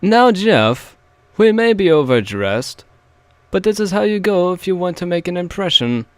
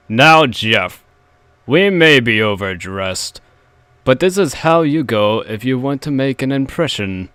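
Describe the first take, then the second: First: High, lofty posh father. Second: Barely posh, close to plain; weak first try at posh. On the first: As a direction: put on a grand posh accent. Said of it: "I'll try again". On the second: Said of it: "That wasn't posh at all". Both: Shown as a demonstration.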